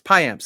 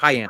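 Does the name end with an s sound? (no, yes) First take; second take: yes; no. First: The name ends with an s sound. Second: The name ends without an s sound. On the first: "You got the S at the end of his name" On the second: "I usually say"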